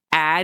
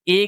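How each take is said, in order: First: "ए" as a short clipped vowel. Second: "ए" as the long letter name A; long vowel. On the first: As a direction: say "ए" short, as in mad. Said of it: "अब ए की sound ए नहीं बोली जाएगी". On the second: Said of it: "ए की तरह ही बोली जाएगी". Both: Shown as a demonstration.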